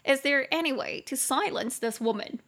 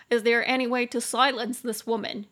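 First: Mock complaint. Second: Louder mock complaint. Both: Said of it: "你就可以开玩笑说".

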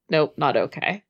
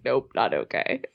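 First: Said in the usual way. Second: Mock head-shaking refusal. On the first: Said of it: "He's like". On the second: Teasing co-host mimics her friend's refusal, lower and softer. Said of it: "you're shaking your head like".

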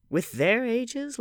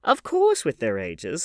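First: "With their ages" drawn out high as a question; slow, high-pitched query on "With their ages"; asking. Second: "Of course with their ages" slow and loud, confirming; loud, drawn-out assurance on "Of course with their ages"; emphatic answer. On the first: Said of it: "asked Dorian". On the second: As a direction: land firmly on "course", drawing it out. Hostess answers the question emphatically. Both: A narrator's reading.

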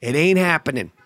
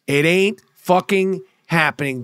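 First: Said in the usual way. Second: "It ain't... fucking... happening", a pause before each stressed word; emphatic word by word. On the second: Real, not acted. Telling the Nets it's over, "It ain't fucking happening" spaced out emphatically. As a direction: hit "fucking" and "happening" as separate, drawn-out beats.

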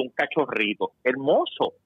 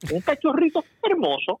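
First: Said in the usual way. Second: Much higher mock-sweet cooing with a laugh in the middle of "cachorrito". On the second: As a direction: coo "Un cachorrito hermoso" up high, laughing through it. Repeats phrase, second time mocking.

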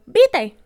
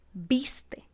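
First: Vite, dropping the s, said loud and high; vite, sin la s; barbarism vite. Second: Viste whispered, s clearly sounded; correct viste. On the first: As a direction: vite said with the s swallowed, mocking. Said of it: "como por ejemplo". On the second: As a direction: breathe out viste with a crisp s. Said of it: "en vez de decir". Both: Shown as a demonstration.

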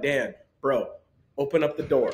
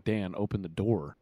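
First: Easy, casual tone with a laugh; totally unbothered ask; relaxed bro request; calm. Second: Calm, soft and low; unbothered soft request. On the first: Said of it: "he literally was like". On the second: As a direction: say it as if nothing happened. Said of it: "you made it sound like Dirk was, like, calm". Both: Retold or imitated.

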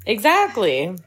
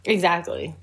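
First: Said in the usual way. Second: Whispered. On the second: Real, not acted. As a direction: whisper it back under your breath. Echoing friend's whispered aside.

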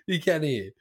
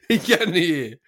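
First: Said in the usual way. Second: Said through a laugh; laughing correction. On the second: Real, not acted. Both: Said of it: "not deaf".

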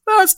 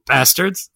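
First: Much higher, a shouted BASTARDS!; exclaimed title. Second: Said in the usual way. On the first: Shown as a demonstration. Asked by co-host to say it, shouted Bastards!. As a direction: belt the word Bastards! out with glee. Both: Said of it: "Say it".

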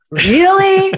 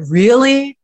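First: "Really?" shot up high in mock exasperation; exaggerated disbelief. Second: A slightly raised, questioning "Really?"; mild disbelief. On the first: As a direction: stretch "Really?" way up like an exasperated parent. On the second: Retold or imitated. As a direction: ask "Really?" with a light lift of doubt. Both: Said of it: "you say to your kids".

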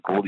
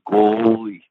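First: Said in the usual way. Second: "Goalie" with a loud, long stretched O; drawn-out nickname. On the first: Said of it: "he always said goalie". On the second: Retold or imitated. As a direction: imitate the boss booming "Goooalie". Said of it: "And he said goalie".

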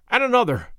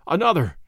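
First: Urgent push. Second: Said in the usual way. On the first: A narrator's reading. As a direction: drive them harder. Urging the workers on.

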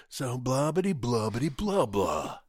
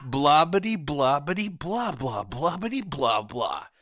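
First: Mocking a bore's chatter; mock babble. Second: Loud, dismissive mock chatter; mock babble. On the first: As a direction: rattle off empty babble. Mimicking a banker's chatter. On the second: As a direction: rattle off meaningless babble mockingly. Mocking someone's empty chatter.

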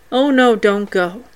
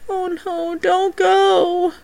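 First: Mild sad plea. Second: Imitating a child's sad plea, much higher and very soft; high, faint ghost child begging; sad ghostly plea. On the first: Retold or imitated. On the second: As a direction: plead like a lost little ghost. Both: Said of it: "saying in a sad voice".

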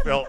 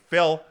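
First: Said in the usual way. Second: Louder, higher call of "Phil"; urgent call. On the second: Retold or imitated. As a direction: call out to him in alarm. Driver calling passenger.

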